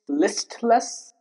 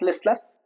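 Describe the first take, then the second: First: The T is pronounced. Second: The T is silent. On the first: The speaker calls it right. "That's why the T is pronounced" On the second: The speaker calls it wrong. "It's not listless"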